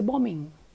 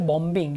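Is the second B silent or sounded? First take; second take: silent; sounded. First: The second B is silent. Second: The second B is pronounced. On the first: The speaker calls it right. "you say bombing" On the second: The speaker calls it wrong. "You don't say bombing"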